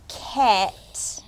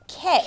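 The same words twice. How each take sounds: First: The word is said slowly, sound by sound. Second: The word is said at normal speed.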